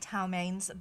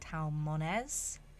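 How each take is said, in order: First: The second syllable sounds like 'main'. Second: The second syllable sounds like 'moan'. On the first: This is how the speaker habitually says it. The speaker calls it wrong. "I say Talmains" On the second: This is how others say it should be said. The speaker calls it right. "told that I'm supposed to say Talmones"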